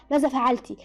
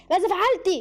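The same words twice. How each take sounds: First: Said in the usual way. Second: High, insistent repeated question; agitated, raised-pitch demand; angry demand. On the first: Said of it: "سوجين سألتها". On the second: A narrator's reading. Repeated demand while choking her.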